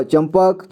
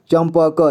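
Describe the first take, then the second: First: Said in the usual way. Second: चंपक split as "cham-pa-ka"; चंपक read piece by piece; sounded out. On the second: Shown as a demonstration. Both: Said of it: "इसे [name] पढ़ेंगे".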